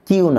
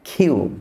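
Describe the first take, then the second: First: The k is released without a puff of air. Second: The k is released with a puff of air. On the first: The speaker calls it wrong. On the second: The speaker calls it right.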